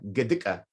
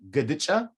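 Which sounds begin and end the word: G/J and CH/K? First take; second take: G, K; G, CH. First: It starts with g and ends with ka. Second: It starts with g and ends with cha. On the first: "So we can make this ja into a g" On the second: "You can also say"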